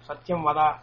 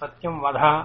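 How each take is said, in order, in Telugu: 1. చివరి హల్లు సాధారణ d శబ్దం. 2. చివరి హల్లు మహాప్రాణ dh శబ్దం.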